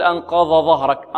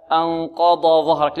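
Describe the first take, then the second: First: أنقض ظهرك with the ض merged into the ظ; wrong reading demo. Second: أنقض ظهرك with ض and ظ clearly separated; correct tajweed model. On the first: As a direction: show the student's mistake, ض swallowed into ظ. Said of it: "لا يقول". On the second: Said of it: "هكذا". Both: Shown as a demonstration.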